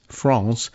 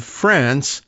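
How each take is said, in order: First: "France" said the French way, with a long open "ah"; lower, quieter "France" with a French nasal vowel; French pronunciation. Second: Said in the usual way. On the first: Shown as a demonstration. Repeats country name the French way.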